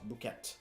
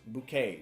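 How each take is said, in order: First: The word ends with an audible T sound. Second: The word ends without a T sound. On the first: The speaker calls it wrong. "not ... We don't say the T, the T is silent" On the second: The speaker calls it right. "The correct pronunciation is, of course"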